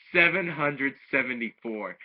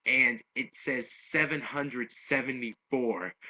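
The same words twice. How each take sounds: First: Louder, higher "Seven hundred seventy-four" in disbelief; amazed repeat. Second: Said in the usual way. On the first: Real, not acted. Reviewer repeats Android eighteen's huge score, amazed. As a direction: say the score again as if you can't believe it.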